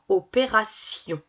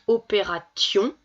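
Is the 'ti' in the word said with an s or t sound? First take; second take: s sound; t sound. First: The middle syllable is said with an s sound. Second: The middle syllable is said with a t sound. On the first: The speaker calls it right. "vous allez vous corriger" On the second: The speaker calls it wrong. "c'est bizarre, ça veut rien dire"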